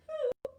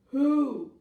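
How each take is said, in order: First: High little hoot; high-pitched mystery creature; hidden shy creature. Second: Big low booming call; loud, low storybook bear; asking bear. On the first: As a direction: pipe it up high from the hiding place. Hidden voice answers from hole. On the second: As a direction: boom the word out as the bear. Bear asks again in story. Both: Acted.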